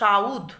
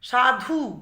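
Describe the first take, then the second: First: The u vowel comes before the dh. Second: The u vowel comes after the dh. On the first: "ধয়ের আগে হর্ষউটা উচ্চারিত হয়ে যাচ্ছে" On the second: "ধয়ের পর উ উচ্চারিত হচ্ছে"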